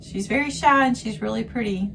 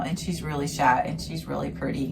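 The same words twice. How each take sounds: First: Repeated at a higher pitch, louder on shy; she's really pretty said up high and bright; higher quote. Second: Said in the usual way. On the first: Retold or imitated. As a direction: lift the voice to quote her. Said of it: "She says". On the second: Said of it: "Janelle goes into".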